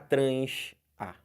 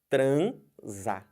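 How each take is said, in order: First: The s and the a are split apart. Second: The s runs straight into the a. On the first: The speaker calls it wrong. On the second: The speaker calls it right. "É transa"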